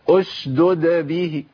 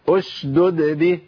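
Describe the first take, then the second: No difference in how they are said.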